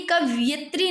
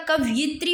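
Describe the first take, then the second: First: कवयित्री with 'yat' in the middle; mispronounced without i. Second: कवयित्री with 'yit' in the middle; short 'i' after य in कवयित्री; correct short i. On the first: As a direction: drop the 'i' after य in कवयित्री. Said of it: "कवयित्री नहीं होता". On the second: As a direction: say कवयित्री as 'kav-yit-ree'. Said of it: "ये पे छोटी मात्रा". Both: Shown as a demonstration.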